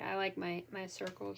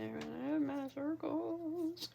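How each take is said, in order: First: Said in the usual way. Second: Slow, stretched-out words rising in pitch; drawn-out. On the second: Real, not acted. Crafter telling viewers about their circles, drawn-out. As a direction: draw it out, climbing to the end.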